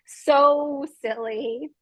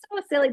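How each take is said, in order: First: Laughing. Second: Said in the usual way. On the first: Real, not acted. Laughing at own clumsiness.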